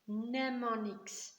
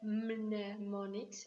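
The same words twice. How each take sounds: First: The word starts with an N sound. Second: The word starts with an audible M sound. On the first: The speaker calls it right. "I leave out the M totally. It's a silent, silent sound" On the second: The speaker calls it wrong. "I don't say mnemonics"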